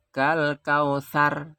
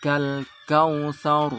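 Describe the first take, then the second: First: Kausar with a thin, light r; wrong thin reading. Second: Kausar slow with a thick, rounded r; correct thick R. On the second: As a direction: stretch kausar and make the r heavy. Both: Shown as a demonstration.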